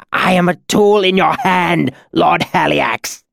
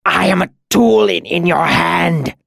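First: High, loud, pained submission; agonized amendment. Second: High, strained gasp of pain; agonized cry. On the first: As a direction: cry out the full title in agony. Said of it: "Cinder amended as he crumpled". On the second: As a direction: cry out like a wounded animal. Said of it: "he convulsed and cried out". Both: A narrator's reading.

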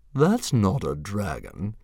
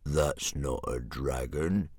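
First: Bully dragon scoffing. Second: Low, slow dragon jeer; mean, heavy sneer from a brute dragon; jeering gronkle. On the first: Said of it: "scoffed Fireworm". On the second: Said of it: "jeered Sea Slug". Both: A narrator's reading.

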